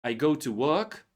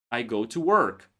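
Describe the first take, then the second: First: British work. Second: American work. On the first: Teacher shows British version to learners. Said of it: "you sound more like British". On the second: Teacher shows American version to learners. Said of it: "you sound like an American". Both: Shown as a demonstration.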